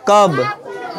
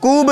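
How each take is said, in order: First: The vowel is a short uh sound. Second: The vowel is a long oo sound. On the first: The speaker calls it right. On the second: The speaker calls it wrong. "कूब नहीं"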